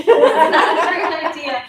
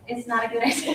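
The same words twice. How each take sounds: First: Higher and louder, laughing through the words; laughing repeat. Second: Said in the usual way. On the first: Retold or imitated. To the group, repeating the warning with a laugh. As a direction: laugh while echoing the advice.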